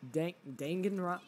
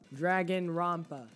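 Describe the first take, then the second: First: The first syllable sounds like 'dang', with no r. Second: The first syllable sounds like 'drag', with an r. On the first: The speaker calls it right. "Dang as in dang it" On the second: The speaker calls it wrong. "I pronounce it Dragonrompa"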